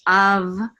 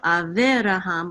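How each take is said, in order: First: No vowel is sounded between v and r. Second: A short vowel is sounded between v and r. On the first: The speaker calls it right. "we're not going to pronounce the shava" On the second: The speaker calls it wrong. "So instead of Avraham"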